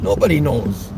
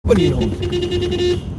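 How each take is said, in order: First: Said in the usual way. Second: Slow, high, stretched-out nobody knows; drawn-out high. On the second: Pretend. Teasing passers-by who know nothing, high and slow. Mock reply about flat earth debates.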